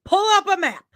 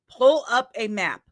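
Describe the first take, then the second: First: Exasperated command. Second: Said in the usual way. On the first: Retold or imitated. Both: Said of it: "I kept telling this person".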